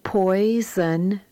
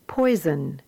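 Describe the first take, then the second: First: Poison said slowly as two parts, poi and son; split in syllables. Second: Said in the usual way. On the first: Shown as a demonstration. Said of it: "read the words as two syllables". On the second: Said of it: "and then as the whole word".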